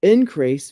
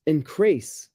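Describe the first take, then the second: First: INCREASE stressed on IN, as a noun; first-syllable stress. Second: INCREASE stressed on CREASE, as a verb; light IN, heavy CREASE in INCREASE; second-syllable stress. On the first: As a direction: say INCREASE slowly as IN-crease. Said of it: "stress is on the first syllable". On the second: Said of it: "stress the second syllable". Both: Shown as a demonstration.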